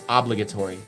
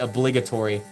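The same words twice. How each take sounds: First: The stress falls on the first syllable. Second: The stress falls on a later syllable. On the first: "Like the upward inflection is at the beginning" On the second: "My wife hates that I say obligatory"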